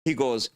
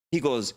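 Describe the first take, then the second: No difference in how they are said.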